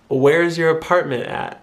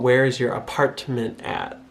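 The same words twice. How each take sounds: First: The T sounds are cut off by glottal stops. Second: The T sounds are pronounced clearly. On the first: The speaker is from Michigan. "notice how I don't actually pronounce those hard T's" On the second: The speaker is from outside Michigan. "someone from outside Michigan might say"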